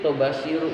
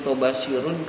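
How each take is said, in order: First: The word ends in a bare vowel, no n. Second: The word ends with a final n sound. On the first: The word is treated as a plural that takes no nunation. The speaker calls it right. "yang betul" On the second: The word is treated as a singular noun. The speaker calls it wrong. "ada yang menyebut tobashirun karena kebiasaan menganggap ini tunggal"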